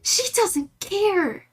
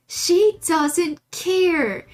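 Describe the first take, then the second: First: Much higher, slow amused emphasis; amused disbelief at a stubborn dog; exaggerated high. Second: Louder, very slow, higher; stressing how little the dog cares; slow emphatic repeat. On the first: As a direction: drag it out in disbelief. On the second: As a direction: stretch each word for emphasis. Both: Real, not acted.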